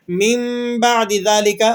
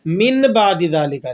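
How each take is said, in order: First: مِن sounded as a held "mimm" before بَعْدِ; iqlab, noon as meem. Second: مِن with a clear short n before بَعْدِ; plain noon reading. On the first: Teacher showing the meem sound we produce, iqlab reading. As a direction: hum an m in place of the n in مِن. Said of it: "یہاں پر ہم میم کی آواز نکال رہے ہیں". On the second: Teacher showing how it would otherwise be read, plain noon reading. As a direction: say "min ba'di", no hum, the n of مِن unchanged. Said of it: "پڑھنا کس طرح چاہیے تھا". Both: Shown as a demonstration.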